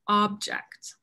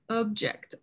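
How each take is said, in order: First: The first vowel is an open 'ah' sound. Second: The first vowel is a short 'uh' sound. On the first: The speaker calls it right. "but it's" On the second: The speaker calls it wrong. "Sometimes people pronounce it"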